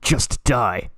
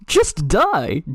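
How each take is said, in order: First: It is said in an off voice. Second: It is said in the character's voice.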